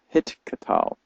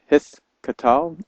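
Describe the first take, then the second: First: The consonant after 'hi' is a hard t sound. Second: The consonant after 'hi' is a soft th sound. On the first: This is the modern pronunciation. "Hit katal would be the modern way of saying it" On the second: This is the older biblical pronunciation. "in older biblical Hebrew, it was a th sound"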